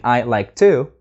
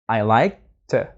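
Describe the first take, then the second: First: The word 'to' has a full vowel. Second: The word 'to' has a weak schwa. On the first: The speaker calls it wrong. "instead of saying" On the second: The speaker calls it right. "The word to becomes to, what we call the schwa"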